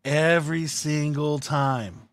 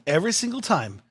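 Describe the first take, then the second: First: "every single time" drawn out slowly; slow, weighty "every single time"; emphatic repeat. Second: Said in the usual way. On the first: Real, not acted. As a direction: stretch each word of "every single time".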